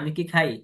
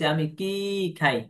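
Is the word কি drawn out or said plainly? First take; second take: plain; drawn out. First: The word কি is said plainly without emphasis. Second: The word কি is drawn out and emphasized. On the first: It asks whether the speaker eats. "টান দিয়ে যদি না বলি" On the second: It asks what the speaker eats. "এই যে টান দিয়ে বলছি"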